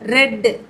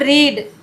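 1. உயிரெழுத்து குறுகியது, 'red' போல. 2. உயிரெழுத்து நீளமானது, 'reed' போல.

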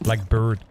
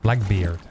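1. La deuxième syllabe se prononce comme 'bird'. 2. La deuxième syllabe se prononce comme 'beard'. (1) "C'est vrai que je dis Blackbird" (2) "C'est vrai que c'est Blackbeard"

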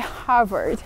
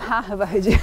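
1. O R é enrolado, com a língua levantada. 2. O R é simples, sem enrolar a língua. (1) "é Harvard, Harvard, o R vai lá pra cima" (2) "a pronúncia não é Harvard"

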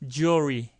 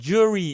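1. L 발음이 분명하고, 천천히 말해요. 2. L 발음이 빠지고 빨리 넘어가요. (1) "이거는 스탠다드로 천천히 들려드렸으니까"

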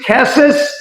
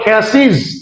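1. বহুবচনের শেষ অংশটি 'es' এর মতো শোনায়। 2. বহুবচনের শেষ অংশটি 'iz' এর মতো শোনায়। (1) "আগে বলেছি" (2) "এখন বলবো আমরা"

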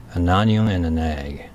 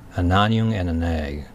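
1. 単語をなめらかにつなげて言います。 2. 単語をなめらかにつなげて言います。

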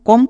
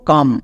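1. এখানে স্বরধ্বনিটি একটি গোল "o" ধ্বনি। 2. এখানে স্বরধ্বনিটি একটি অগোল "uh" ধ্বনি। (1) "কম না" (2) "সো এর জন্য আমরা উচ্চারণ করব কাম"

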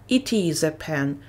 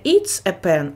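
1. "It" і "is" вимовляються як окремі слова. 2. "It is" стягується до одного складу. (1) "а it is a pen" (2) "Не it's a pen"

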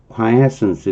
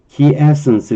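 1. 첫 음절은 'kwai'처럼 들려요. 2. 첫 음절은 'kee'처럼 들려요. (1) "이렇게 발음하기도 하는데" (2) "이렇게 발음하기도 하고"

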